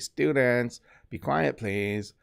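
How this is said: It is said in a mocking, teasing tone. It makes fun of the person who usually says it. "I'm making fun of the teacher"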